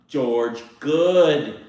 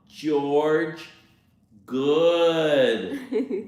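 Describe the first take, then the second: First: It is spoken at a normal pace. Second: It is spoken very slowly.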